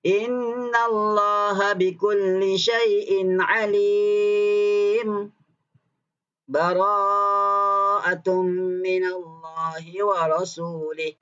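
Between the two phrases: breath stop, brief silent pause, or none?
brief pause. A brief silent pause without a breath. "saktah. Berhenti sekejap"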